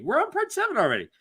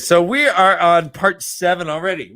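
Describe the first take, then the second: First: Fast, high-pitched rush. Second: Said in the usual way. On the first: Shown as a demonstration. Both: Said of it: "I'm gonna try this again".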